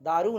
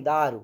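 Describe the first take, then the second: First: दारु with the final vowel drawn long, "daaroo"; mispronounced दारु, long oo ending; wrong final vowel. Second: दारु with a short final u, lower in pitch; दारु ending on a brief, falling u; corrected short vowel. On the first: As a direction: say दारु wrongly, stretching the last u. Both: Shown as a demonstration. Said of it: "दारु नहीं".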